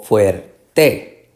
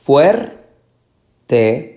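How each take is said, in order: First: "fuerte" very slowly as fuer-TÉ; pause, then hit the TE of "fuerte"; stress on last syllable. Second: "fuerte" very slowly, FUER raised and strong, then TE; stress on first syllable. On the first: Teacher offering the wrong option, stressing TE in "fuerte". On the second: Teacher asking for the tonic syllable, stressing FUER in "fuerte". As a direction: punch FUER and separate the TE in "fuerte". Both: Shown as a demonstration. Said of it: "La sílaba tónica".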